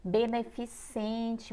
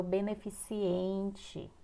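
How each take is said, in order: First: Beneficente slowly, ending "-CEN-te"; correct pronunciation. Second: Beneficiente with an extra I before "-ente"; common mispronunciation. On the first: Teacher giving the right word, Beneficente slow and correct. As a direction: say Beneficente slowly without an extra I. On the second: Teacher showing what many people say, beneficiente with added I. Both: Shown as a demonstration. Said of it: "muitas pessoas falam beneficiente".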